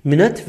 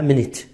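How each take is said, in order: First: مینت with a schwa ending, "MIN-uht"; first variant demo. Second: مینت with short "i" ending, "MIN-it"; second variant demo. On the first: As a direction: relax the second vowel of مینت to "uh". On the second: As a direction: keep a clear short vowel ending مینت, "-it". («مینت» با واکهٔ کوتاه، مینِت) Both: Shown as a demonstration. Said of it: "هر دو تا تلفظ رو".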